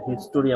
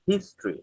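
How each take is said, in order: First: It is said with three syllables. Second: It is said with two syllables. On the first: The speaker calls it wrong. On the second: The speaker calls it right.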